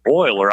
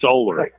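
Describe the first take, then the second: First: The first vowel is not a plain 'oh'. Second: The first vowel is a plain 'oh'. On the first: The speaker calls it wrong. "If I mispronounce and say Euler" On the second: The speaker calls it right. "O H L E R it is"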